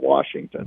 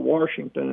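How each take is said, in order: First: It is said with a standard pronunciation. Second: It is said with a regional pronunciation. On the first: This is how it is usually expected to be said. "instead of Washington" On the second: This is how the speaker naturally says it. "you'll forgive me if I say Washington"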